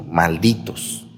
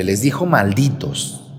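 First: "malditos" said slowly and low, drawn out; slow low curse. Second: Said in the usual way. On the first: Shown as a demonstration. Priest demonstrating Jesus's harsh word, low and slow. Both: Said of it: "Así les dijo".

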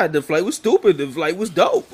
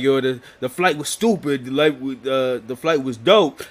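First: STUPID and DOPE punched, pitched up; emphatic repeat. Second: Said in the usual way. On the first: Retold or imitated. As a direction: repeat it higher and harder, leaning on "stupid" and "dope". Nephew repeats himself to baffled uncle.

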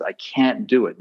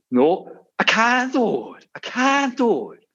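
First: Said in the usual way. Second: Very high, slow despairing donkey wail; whiny donkey. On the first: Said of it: "the voice that says". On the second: Retold or imitated. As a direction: drag it out like a defeated cartoon donkey. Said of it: "first donkey says".

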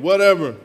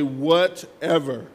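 First: "Whatever" louder, quicker, in one punch. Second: "Whatever" stretched slowly into separate beats; drawn-out WHATEVER. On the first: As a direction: hit "Whatever" hard and short. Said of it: "Say it again". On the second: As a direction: draw out "Whatever" for the congregation to repeat. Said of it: "Somebody say". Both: Shown as a demonstration.

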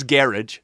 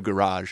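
First: Garage said as GARE-ij; garage with a short "ij" ending; adopted New Zealand pronunciation. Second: Said in the usual way. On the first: Retold or imitated. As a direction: stress the first syllable of garage, rhyming with carriage. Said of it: "he says garage instead of garage". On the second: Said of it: "instead of garage".

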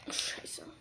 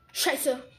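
First: Whispered curse. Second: Said in the usual way. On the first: Real, not acted. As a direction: breathe the curse, no voice. Swears to himself in game.

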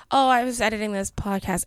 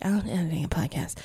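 First: Said in the usual way. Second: Softer, sheepish little mumble; mock apologetic. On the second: Telling the stage manager sheepishly about editing a podcast, mock apologetic. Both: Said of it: "And I said it super apologetically".

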